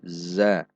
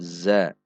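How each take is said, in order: No difference in how they are said.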